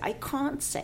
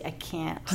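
First: The word can't is said with a British accent. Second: The word can't is said with an American accent. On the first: The speaker calls it wrong. "you don't say" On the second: The speaker calls it right. "You say"

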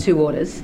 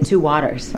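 First: It is said in an Australian accent. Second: It is said in an American accent. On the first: The listener does not understand it. "I say two orders, they go, what?" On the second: The listener understands it. "I have to say two waters"

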